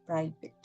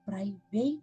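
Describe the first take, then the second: First: The last syllable sounds like 'it'. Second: The last syllable sounds like 'ate'. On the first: The speaker calls it right. "ಇದಕ್ಕೆ ಪ್ರೈವೇಟ್ ಅಂತ, ಅಂದ್ರೆ ಎಗೆ ಇ ಅಂತ sound ಬರ್ತಾ ಇದೆ" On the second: The speaker calls it wrong. "ಪ್ರೈವೇಟ್ ಅಂತ ಹೇಳ್ಬಾರ್ದು"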